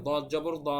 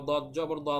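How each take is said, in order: Both takes have the same delivery.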